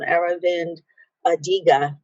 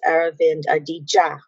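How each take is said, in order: First: The surname has a hard g sound. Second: The surname has a j sound. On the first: The speaker calls it wrong. "I mispronounced the name of this author" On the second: The speaker calls it right. "but it's"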